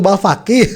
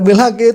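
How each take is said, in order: First: The name is said with a and f: Balfaki. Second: The name is said with i and h: Bilhaki. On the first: The speaker calls it right. "itu Balfaki" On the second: The speaker calls it wrong. "Bukan Bilhaki"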